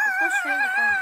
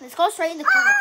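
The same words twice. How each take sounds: First: Very high squeaky repeat; high squeal. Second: Said in the usual way. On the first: Pretend. Repeats line, second take squealed.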